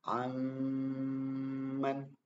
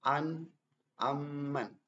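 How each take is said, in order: First: The nasal sound is held for two beats. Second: The nasal sound is cut short and rushed. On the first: The speaker calls it right. "ditahan dua harokat ya atau dua ketukan" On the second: The speaker calls it wrong. "itu terlalu cepat ya"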